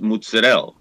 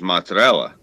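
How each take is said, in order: First: The word is said with an Italian-dialect pronunciation. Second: The word is said with an American pronunciation. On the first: "the way I was raised" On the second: "in this country, everyone says"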